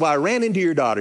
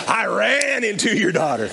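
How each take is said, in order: First: Said in the usual way. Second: "ran" stretched long and pitched up; stress on "ran". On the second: Retold or imitated. Pastor correcting the dad's misunderstanding, long emphatic "ran". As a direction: lean hard on "ran", drawing it out.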